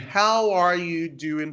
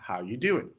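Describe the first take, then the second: First: Every word is said fully and separately. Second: The words are squeezed together, dropping 'are'.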